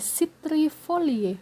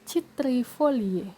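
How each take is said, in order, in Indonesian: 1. Kata ini diawali dengan bunyi s. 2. Kata ini diawali dengan bunyi k. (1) "penyebutannya itu berubah menjadi S"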